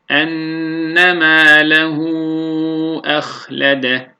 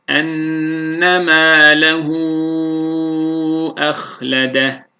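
First: It is recited at medium pace, with moderate lengthening. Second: It is recited slowly, with the longest lengthening. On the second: "Yavaş okuyuşta, tahkikte"

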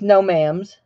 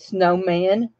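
First: The word ends with an m sound. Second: The word ends with an n sound. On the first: This is how small children said it. "They were always snowmams" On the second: This is the usual adult pronunciation. "they never said snowman"

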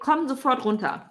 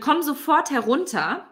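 First: The last word is shortened to two syllables. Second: The last word is said in its full three-syllable form. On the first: It is the casual, everyday way of saying it. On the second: It is the standard, formal way of saying it.

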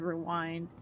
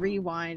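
First: The stress falls on the usual syllable. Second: The stress falls on an unusual syllable. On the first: The speaker calls it right. "instead of rewind" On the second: The speaker calls it wrong. "I don't want to keep saying rewind"

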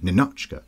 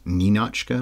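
First: The stress is on the second syllable. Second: The stress is on the first syllable. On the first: "in this movie, Douglas and others are always saying Ninotchka" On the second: "You emphasize the Nin rather than the Och"

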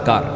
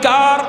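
First: The word is said at normal loudness. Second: The word is said noticeably louder.

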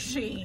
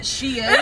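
First: The name sounds like 'sheen', one syllable. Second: The name sounds like 'she's in', two syllables.

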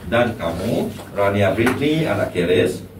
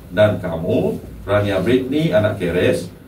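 The two takes are said the same way.

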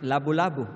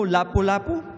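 First: The middle consonants are voiced b sounds. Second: The middle consonants are voiceless p sounds.

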